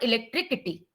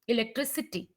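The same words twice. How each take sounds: First: The c before -ity sounds like k. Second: The c before -ity sounds like s. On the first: The speaker calls it wrong. "It's not like that" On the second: The speaker calls it right. "the sound is like S as in silly"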